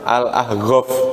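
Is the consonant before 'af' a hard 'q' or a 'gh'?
gh. The word is said with a 'gh' sound.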